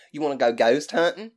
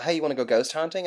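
First: Louder, exaggerated Southern invitation; thicker Southern accent. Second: Said in the usual way. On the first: Friends invite the speaker out ghost hunting, thick Southern accent. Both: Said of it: "Or, excuse me".

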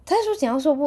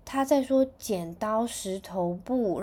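First: Higher and louder, stunned disbelief; amazed. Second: Slow, offhand, like it's obvious; casually explaining to Mom, as if nothing special; matter-of-fact. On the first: Mom echoes the brother's translation, higher, louder, amazed. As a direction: repeat it as if you can't believe it. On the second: Big brother explains the baby's words to Mom, slow and matter-of-fact. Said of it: "非常稀松平常说". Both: Retold or imitated.

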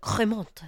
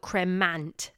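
First: Cremant said the French way with a nasal final vowel and silent t; French accent. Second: Cremant said the English way as spelled; spelled out as written. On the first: Host showing viewers the proper French pronunciation. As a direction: Cremant with a proud French lilt. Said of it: "I hope you like my French accent there". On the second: Host spelling the name for viewers, English reading. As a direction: Cremant read plainly with English sounds. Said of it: "just in case you're looking for spelling". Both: Shown as a demonstration.

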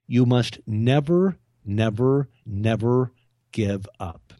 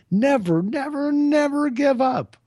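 First: Each "never" slow and leaned on; emphatic never. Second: Much higher and louder, slow rallying cry; shouted never. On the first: Coaching listeners, slow deliberate stress on each never. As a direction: hammer every "never". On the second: Climax urging listeners never to quit, high slow shout. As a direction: belt it out like a battle cry. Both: Real, not acted.

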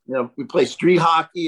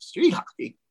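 First: Said in the usual way. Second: "Street hockey?" asked higher, in disbelief; surprised. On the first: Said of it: "Cal calls me and says". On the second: Retold or imitated. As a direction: echo "Street hockey?" as a startled question. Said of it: "And I went".

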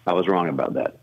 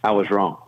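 First: Lower, softer and more humble; sincere admission. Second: Said in the usual way. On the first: Retold or imitated. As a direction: let it land gently, with humility. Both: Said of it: "paused and said the following".

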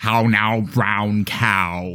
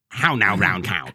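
First: Wide open "ow" sounds in "How now, brown cow?"; prim precise elocution. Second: Crisp round vowels on "How now, brown cow?"; prim precise elocution. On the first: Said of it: "It really opens the mouth". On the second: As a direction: open the mouth wide on each "ow" in "How now, brown cow?". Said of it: "I still like my". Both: Shown as a demonstration.

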